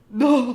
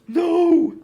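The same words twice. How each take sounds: First: It is said in a very raspy old man voice. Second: It is said in a less raspy old man voice.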